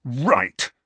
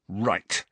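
First: Sharper angry outburst; open fury. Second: Restrained, curt anger; contained fury. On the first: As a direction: let the fury break out on one word. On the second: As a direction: hold the fury in on one word. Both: A narrator's reading. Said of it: "who looked furious now".

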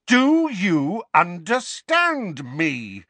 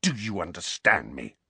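First: Loud, high, very drawn-out demand; slow, enraged yell; furious shout. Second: Contained, menacing demand; restrained angry snarl. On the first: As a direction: bellow it slowly, word by word. Harry shouts his demand. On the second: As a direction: demand it without raising the voice. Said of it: "Harry snarled". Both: A narrator's reading.

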